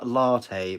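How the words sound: It is said in a posh accent. "I have to put on a, a posh accent and go"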